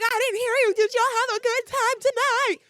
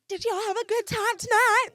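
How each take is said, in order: First: Very high, loud hype shout; louder crowd call. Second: High, loud hype-up shout; drunken crowd call. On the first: Drunk woman demanding more from elevator riders, very high loud shout. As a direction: belt it out demanding a bigger cheer. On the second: Drunk woman addressing everyone in the elevator, high hype shout. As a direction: work the elevator like a concert crowd. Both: Retold or imitated.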